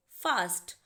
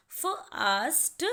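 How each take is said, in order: First: Said in the usual way. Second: "fast" drawn out very slowly so every letter is heard; slow demo word. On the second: Shown as a demonstration. Teacher to students letting every letter be heard, slow. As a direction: stretch "fast" so each sound comes through. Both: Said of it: "letter की sound आप सुन सकते हैं".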